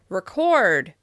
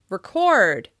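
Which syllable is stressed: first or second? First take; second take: second; second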